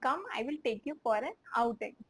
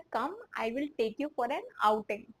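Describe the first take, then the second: First: Slow, word-by-word repeat. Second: Slow, deliberate model line; slow translation. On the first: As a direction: repeat it slowly for learners. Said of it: "तो". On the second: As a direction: dictate it slowly. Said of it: "इसको हम बोल सकते हैं". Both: Shown as a demonstration.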